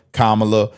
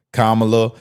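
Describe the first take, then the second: No difference in how they are said.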